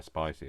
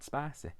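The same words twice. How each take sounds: First: Said in the usual way. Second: Spicy pitched high, said as "spassy"; odd spicy. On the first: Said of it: "I don't know where spicy has come from". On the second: Shown as a demonstration. Echoing their own silly word, high odd spicy. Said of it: "I don't know why I have to say it like that".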